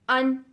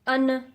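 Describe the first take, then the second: First: The final consonant stops abruptly with no echo. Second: The final consonant is released with an echoing bounce. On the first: The speaker calls it right. "Instant हमने रुक जाना है क्योंकि इन हुरूफ पे कलकला नहीं है" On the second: The speaker calls it wrong. "अगर आप इन हुरूफ पे अन, मिन, अक करते हैं तो ये आप गलत पढ़ रहे हैं"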